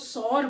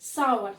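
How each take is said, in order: First: The vowel sounds like 'sore', one syllable. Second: The vowel sounds like 'sow-er', with a glide. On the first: The speaker calls it wrong. "बहुत से लोग इसको सौर बोलते हैं।" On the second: The speaker calls it right. "The correct pronunciation is सावर"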